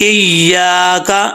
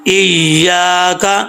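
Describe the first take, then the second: No difference in how they are said.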